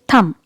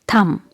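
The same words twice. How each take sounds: Both takes have the same delivery.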